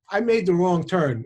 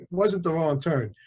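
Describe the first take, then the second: First: "made" hit hard as the mistake; stress on made. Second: "wasn't" punched, correcting himself; stress on wasn't. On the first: Husband admitting to the audience he took the wrong road, stress on "made". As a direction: lean on "made", falling at the end. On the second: Correcting his own story for the audience, stress on "wasn't". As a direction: lean on "wasn't" and let the line fall. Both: Shown as a demonstration.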